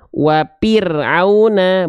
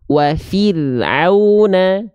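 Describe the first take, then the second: First: The middle consonant is a p sound. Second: The middle consonant is an f sound. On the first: The speaker calls it wrong. "Tertukar menjadi huruf P. Dan ini adalah kesalahan" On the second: The speaker calls it right. "Tapi wafir auna"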